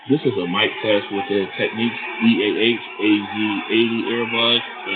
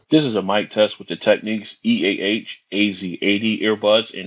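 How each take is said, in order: First: The voice is heard over crowd background noise. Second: The voice is heard with little background noise. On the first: "a crowded location" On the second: "a quiet location"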